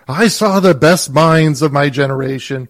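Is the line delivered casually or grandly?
grandly. It is delivered grandly, as an important moment.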